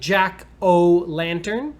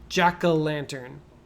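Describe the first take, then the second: First: The middle O is a full 'oh' sound. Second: The middle O is a short 'uh' sound. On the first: "it looks like" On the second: "the O, you can say it kind of like uh"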